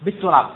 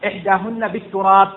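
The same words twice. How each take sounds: First: بالتراب said louder and falling; stress on التراب. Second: بالتراب said louder in the quote; بالتراب carried loud to the end; stress on التراب. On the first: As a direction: punch بالتراب as the key word. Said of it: "teacher repeats louder". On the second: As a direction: hit بالتراب hard. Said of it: "teacher repeats the word". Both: Shown as a demonstration.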